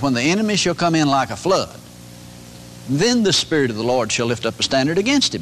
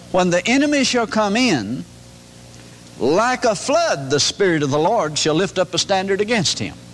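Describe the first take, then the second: First: There is no pause before 'like a flood'. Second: There is a pause before 'like a flood'.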